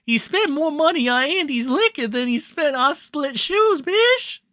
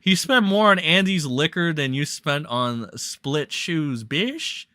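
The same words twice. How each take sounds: First: High-pitched put-on accent impression; Ralph. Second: Said in the usual way. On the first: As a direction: squeal it out in an exaggerated accent. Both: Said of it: "Do I have to do that in the Ralph accent?".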